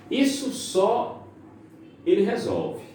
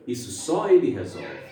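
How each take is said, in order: First: Isso só high and drawn out, long pause, ele resolve; pausa da vírgula. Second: Isso só ele resolve run together, no break after só; sem vírgula. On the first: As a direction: stretch Isso só, stop, then ele resolve. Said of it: "É mais ou menos assim". (Isso só alongado, pausa, ele resolve) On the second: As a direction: join só ele into one falling phrase. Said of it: "Olha a entonação como é diferente". (Isso só ele resolve emendado, sem pausa) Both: Shown as a demonstration.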